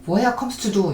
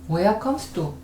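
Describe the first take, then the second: First: Each word is pronounced fully and separately. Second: The last two words blend into one reduced word. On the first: The speaker calls it wrong. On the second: The speaker calls it right.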